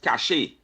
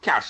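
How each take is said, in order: First: The word is said differently from 'cash'. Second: The word sounds just like 'cash'. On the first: The speaker calls it right. "it's cache" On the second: The speaker calls it wrong. "the word is not pronounced cash"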